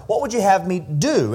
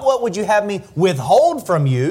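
First: Final "do" punched, then falling; stress on do. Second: "withhold" set apart and punched; stress on withhold. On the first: Preacher corrects the misreading of Jesus' question, stressing "do". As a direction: land firmly on "do" as the real question. Contrasts do with withhold. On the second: Preacher rejects a misreading of Jesus' question, stressing "withhold". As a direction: lean on "withhold" as the rejected idea. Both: Shown as a demonstration.

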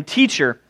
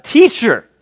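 First: Said in the usual way. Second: Higher, sugary fake respect; butter him up; mock flattery. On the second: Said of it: "It's really funny when you think about it".

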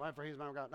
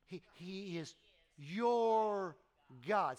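First: Dropping low and soft on Oh, for he's my God; wrong, offhand reading of he's my God; careless reading. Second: YOUR lifted and held in He is your God; stress on YOUR. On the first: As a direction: toss off "he's my God" casually and quietly. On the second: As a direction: lean on the word your. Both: Shown as a demonstration. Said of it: "No, no, no".

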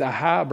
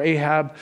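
First: Ahab said as ah-HAB; Ahab, first pronunciation. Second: Ahab said as AY-hab; Ahab, second pronunciation. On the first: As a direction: say Ahab with an open "ah" at the start. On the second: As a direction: say Ahab with a long "ay" at the start. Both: Shown as a demonstration. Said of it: "I don't know if it's Ahab or Ahab".

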